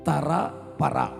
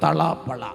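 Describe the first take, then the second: First: The middle consonant is said as an R. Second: The middle consonant is said as an L. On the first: The speaker calls it right. "തള പള എന്നല്ല, തറ പറ" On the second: The speaker calls it wrong. "റാ പറയുമ്പോഴെല്ലാം ലാ എന്നാ പറയുന്നത്"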